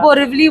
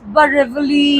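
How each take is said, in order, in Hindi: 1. नाम सामान्य स्थानीय लहजे में बोला गया है। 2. नाम बनावटी रईसी लहजे में बोला गया है।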